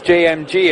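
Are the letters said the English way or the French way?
English. The letters are said with English letter names.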